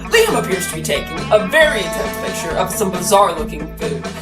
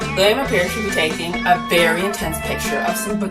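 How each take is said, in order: First: It is said in a put-on character voice. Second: It is said in the speaker's normal voice.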